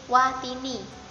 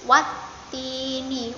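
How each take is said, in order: First: The t sound is short and single. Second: The t sound is doubled and held longer. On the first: The speaker calls it wrong. "Itu kalau tanpa tasydid. Jadi watini" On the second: The speaker calls it right. "Kalau ada tasydid itu wanya langsung mendapatkan huruf ta-nya"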